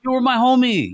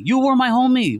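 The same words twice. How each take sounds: First: "homie" hit hardest, voice raised; stress on homie. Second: "were" hit hardest, voice raised; stress on were. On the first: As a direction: lean on "homie" in You were my homie. Hurt, raising voice in argument. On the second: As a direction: lean on "were" in You were my homie. Repeats it, shifting emphasis. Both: Real, not acted.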